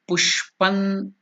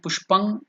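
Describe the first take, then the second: First: The word ends with an n sound. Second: The word ends with an ng sound. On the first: The speaker calls it right. "it is Pushpan. ... So na is to be stressed" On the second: The speaker calls it wrong. "it is not"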